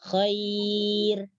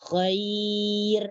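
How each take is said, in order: The two takes are said the same way.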